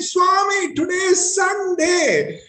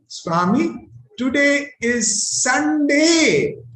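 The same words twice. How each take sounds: First: It is shouted at full volume. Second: It is said a little louder.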